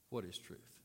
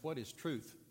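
First: It is spat out with scornful dismissal. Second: It is asked in a neutral, plain way.

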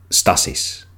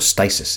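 First: It is said with a Greek pronunciation. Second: It is said with an English pronunciation. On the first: "Greeks of that time even had a great word for civil war" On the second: "or stasis in English"

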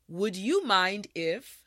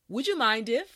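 First: The phrase is said at a slow, careful pace. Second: The phrase is said at a normal, everyday pace. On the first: "Now repeat after me" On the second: "now let's say it at a normal pace"

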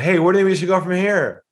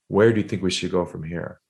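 First: It is said quickly with upbeat, excited energy. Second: It is said slowly and calmly with a lowered voice.

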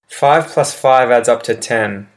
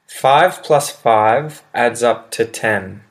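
First: The sentence is spoken at a quick pace. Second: The sentence is spoken at a slower pace.

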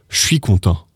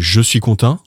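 First: 'Je suis' is squeezed into a shorter form. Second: Each word of 'je suis' is said in full. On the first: "let's say" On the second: "Instead of saying"

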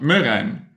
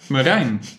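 First: The stress is on the first syllable. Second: The stress is on the last syllable. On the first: The speaker calls it wrong. "And not Marijn" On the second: The speaker calls it right. "you put the emphasis or the accent on the last syllable"

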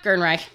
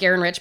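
First: The name ends with a sound like 'Reich'. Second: The name ends with a sound like 'rich'. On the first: "I always heard it was Gernreich" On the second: "I always said Gerenrich"

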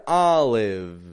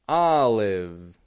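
Both takes have the same delivery.

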